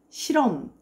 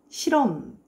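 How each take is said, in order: The two takes are said the same way.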